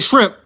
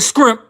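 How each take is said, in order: First: The word begins with a shr sound. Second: The word begins with an skr sound. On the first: "I say shrimp" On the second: "I don't say scrimp"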